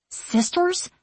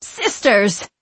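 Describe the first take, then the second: First: High, rising, fearful question; startled and uneasy, voice jumping up; suddenly afraid. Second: Eerie, piercing witch's call with a falling end; haughty witch calling out. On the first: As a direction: ask it in sudden alarm, pitch lifting. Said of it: "suddenly afraid". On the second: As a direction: summon them like an imperious witch. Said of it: "calls in a haughty, piercing voice". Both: A narrator's reading.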